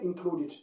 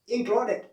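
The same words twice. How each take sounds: First: The ending is not said as an 'id' sound. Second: The ending is said as an 'id' sound. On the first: The speaker calls it wrong. "Don't say included" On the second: The speaker calls it right. "we say what? Included"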